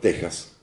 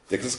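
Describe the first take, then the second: First: The x is sounded like a Spanish 'j'. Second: The x is sounded like 'ks'. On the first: This is how the speaker prefers to say it. "Yo digo Texas" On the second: This is how English-speaking Texans say it. "que lo digan los güeritos estos cowboys"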